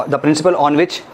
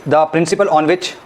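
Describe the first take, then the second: No difference in how they are said.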